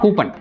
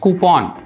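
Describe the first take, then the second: First: The last syllable has a short 'uh' vowel. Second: The last syllable has a long 'ah' vowel. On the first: The speaker calls it wrong. "It's not கூப்பன்" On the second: The speaker calls it right. "It's கூப்பான்"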